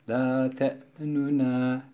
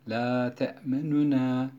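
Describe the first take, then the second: First: A faint, shortened u vowel sounds between the n's. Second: A faint, shortened u vowel sounds between the n's.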